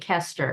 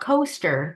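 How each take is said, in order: First: The first vowel is short, like 'kest'. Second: The first vowel is long, like 'coast'. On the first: The speaker calls it right. "it's Kimberly Kester" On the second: The speaker calls it wrong. "it's not coaster, but it looks like coaster"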